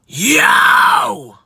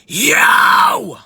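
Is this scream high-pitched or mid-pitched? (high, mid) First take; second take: high; high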